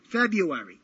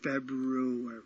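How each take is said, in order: First: It is said in a Brooklyn accent. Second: It is said in a standard accent.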